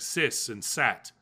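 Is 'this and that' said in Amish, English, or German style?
Amish. It is said with an S sound for TH.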